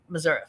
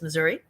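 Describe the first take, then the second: First: The word has the speaker's relaxed, tired pronunciation. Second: The word has the speaker's usual, alert pronunciation. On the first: The speaker is tired. "And then I'm from Saint Louis, um, Missouri" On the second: The speaker is not tired. "I say I'm from Saint Louis, Missouri, uh, unless I'm tired"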